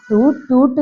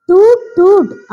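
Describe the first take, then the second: First: Said in the usual way. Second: High, loud toot toot like a car horn; playful mock car horn. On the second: Shown as a demonstration. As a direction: honk it out high and bright. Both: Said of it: "എന്ന് horn അടിച്ചുകൊണ്ട് പറയണേ".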